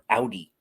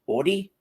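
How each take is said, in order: First: It is said the Michigan way. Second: It is said the New Jersey way.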